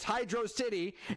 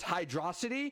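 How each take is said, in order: First: It is said as 'hydro' plus 'city'. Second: It is said as one word rhyming with 'velocity'. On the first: It is a city underwater. The speaker calls it right. "which is the correct way to say it" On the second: It comes from the word velocity. The speaker calls it wrong. "Anybody that says it's Hydrocity is a brainlet"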